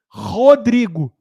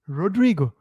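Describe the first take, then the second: First: The name is said with a Brazilian Portuguese accent. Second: The name is said with an American English accent. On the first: "Nem eu me apresento assim" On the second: "Eu americanizo meu nome"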